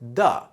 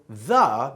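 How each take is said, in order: First: The word starts with a hard d sound. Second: The word starts with a soft th sound.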